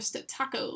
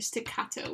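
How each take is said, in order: First: The middle syllable starts with a t sound. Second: The middle syllable starts with a k sound.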